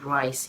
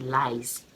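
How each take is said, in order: First: The word begins with an R sound. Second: The word begins with an L sound. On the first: "Instead of saying rice" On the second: "you say lies"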